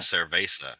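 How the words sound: It is said with English vowels, e becoming a. The speaker calls it wrong. "they say cerveza"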